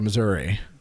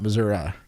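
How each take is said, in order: First: It is said the northern Missouri way. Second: It is said the southern Missouri way.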